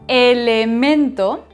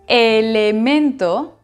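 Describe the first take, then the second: The two takes are said the same way.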